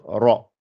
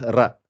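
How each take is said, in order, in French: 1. Le r se dit lourd et plein. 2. Le r se dit léger et fin. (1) "Je suis obligé de dire ra" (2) "je n'ai plus le droit de dire ra"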